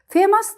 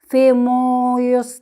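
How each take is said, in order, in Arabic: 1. حرف O صامت في المقطع الثاني. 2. يُنطق حرف O في المقطع الثاني. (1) "لا قلنا فيموس" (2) "ما قلناش فيموس"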